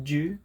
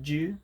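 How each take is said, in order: First: The two words are merged into one quick syllable. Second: The same.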